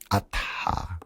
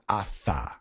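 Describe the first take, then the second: First: The middle sound is a t with breath. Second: The middle sound is an English th. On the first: The speaker calls it right. "when we pronounce Sanskrit, it's uh, Atha, if you're getting technical" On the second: The speaker calls it wrong. "which is how we would pronounce it in English"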